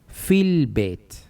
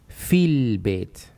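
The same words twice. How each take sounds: First: The words run together as one joined unit. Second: The words run together as one joined unit.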